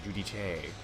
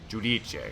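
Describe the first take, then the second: First: The final syllable carries the stress. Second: The final syllable carries no stress. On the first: The speaker calls it wrong. "I put the emphasis in the wrong place" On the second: The speaker calls it right. "There's no accent on the final syllable"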